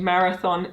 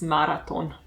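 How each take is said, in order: First: The middle consonant is a soft 'th' sound. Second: The middle consonant is a plain 't' sound. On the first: "You just don't do the like the sound" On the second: "you just do t"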